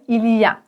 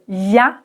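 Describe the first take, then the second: First: The "il" is pronounced, giving the full form. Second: The "il" is dropped, leaving a short "y a". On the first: Full standard form. "ça veut dire il y a" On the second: Casual spoken form. "À l'oral, souvent, tu vas entendre"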